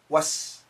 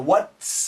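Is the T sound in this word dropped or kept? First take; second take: dropped; kept. First: The T sound is dropped before the S. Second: The T sound is kept before the S.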